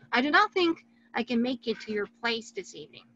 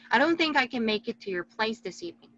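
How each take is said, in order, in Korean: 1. "Do not"은 두 단어를 다 풀어서 말해요. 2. "Do not"은 줄여서 한 음절로 말해요.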